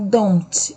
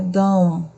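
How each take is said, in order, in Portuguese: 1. O som do T final é pronunciado. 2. O som do T final fica mudo. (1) "não é don't, não se pronuncia o T" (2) "É don't"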